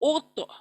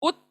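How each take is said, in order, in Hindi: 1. अंतिम t आधे झटके के साथ मज़बूत किया जाता है। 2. अंतिम t सपाट रुकता है, कोई झटका नहीं। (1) "इट will double the sound" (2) "उत नहीं"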